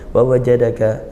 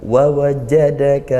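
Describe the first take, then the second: First: The consonants are said weakly, without pressure. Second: The consonants are pressed firmly and held. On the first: The speaker calls it wrong. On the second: The speaker calls it right. "tapi kuatkan syiddah, tekan tahan suaranya"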